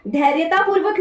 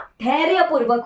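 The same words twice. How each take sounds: First: धैर्यतापूर्वक said as dhairyataa-poorvak, with the extra ता; teacher reads out the wrong spelling धैर्यतापूर्वक; wrong form. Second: धैर्यपूर्वक said as dhairya-poorvak, with no ता; teacher gives the correct धैर्यपूर्वक; correct form. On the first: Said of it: "धैर्यतापूर्वक नहीं होता". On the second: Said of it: "धैर्यपूर्वक होता है". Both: Shown as a demonstration.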